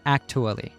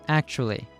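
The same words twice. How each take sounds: First: The middle consonant sounds like T. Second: The middle consonant sounds like Ch. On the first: The speaker calls it wrong. "not actually" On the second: The speaker calls it right. "the T is pronounced as a Ch"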